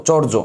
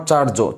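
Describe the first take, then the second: First: চর্য with a rounded vowel, "chor-jo"; correct vowel pronunciation. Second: চার্য with a long open "a", "chaar-jo"; wrong vowel pronunciation. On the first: Teacher correcting the class, চর্য said as "chor-jo". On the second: Teacher showing the mistake to avoid, চার্য said as "chaar-jo". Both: Shown as a demonstration. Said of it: "not চার্য".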